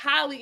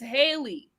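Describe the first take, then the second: First: The first vowel sounds like the one in 'hot'. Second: The first vowel sounds like the one in 'hay'. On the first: The speaker calls it wrong. "not Holly" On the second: The speaker calls it right. "it's Haley"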